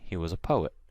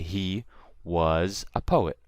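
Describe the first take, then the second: First: The word 'was' is unstressed. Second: The word 'was' is stressed. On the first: The speaker calls it right. "I say" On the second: The speaker calls it wrong. "I don't say"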